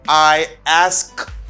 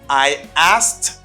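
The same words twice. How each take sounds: First: The k sound in 'asked' is pronounced. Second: The k sound in 'asked' is silent. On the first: The speaker calls it wrong. "It's hard and it's complicated. You can't say that" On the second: The speaker calls it right. "You don't pronounce K"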